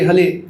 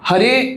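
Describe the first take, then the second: First: The word is said with an L sound. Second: The word is said with an R sound. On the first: "ल pronounce करते हैं" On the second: "China में ना हरे र pronounce नहीं होता"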